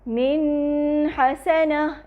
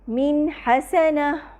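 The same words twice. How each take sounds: First: The n sound is held long and nasal. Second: The n sound has a medium length. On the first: The speaker calls it wrong. "यानी नून का गुन्ना लंबा नहीं करेंगे" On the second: The speaker calls it right. "नून तवस्सुत के साथ अदा होता है"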